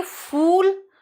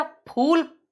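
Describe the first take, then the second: First: "फूल" as "fool", with a long f; high, drawn-out "फूल" with streaming f; English f. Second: "फूल" as "phool", lips closed first; puffed p opening a high "फूल"; Hindi pha. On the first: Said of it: "और ये फूल मूर्ख". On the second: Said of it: "flower". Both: Shown as a demonstration.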